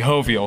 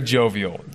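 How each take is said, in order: First: The word is pronounced the Spanish way. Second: The word is pronounced the English way.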